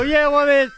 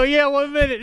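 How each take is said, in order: First: Louder, higher "Yeah, one minute"; strained politeness. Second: High, polite "Yeah, one minute"; mock-sweet "one minute" to a fan; polite brush-off. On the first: Retold or imitated. Fan keeps asking, he repeats it louder and tighter. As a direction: politeness wearing thin, pushed out. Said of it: "and you go". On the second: Imitating him stalling a fan politely: high and sweet. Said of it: "and very politely, you go".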